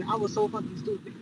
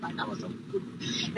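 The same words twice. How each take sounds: First: Plain. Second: Regretful whisper. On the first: Regretful aside about herself. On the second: Storyteller admitting her own mistake, whispered. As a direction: voice dropped to almost nothing. Regretful aside, repeated under breath. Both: Real, not acted.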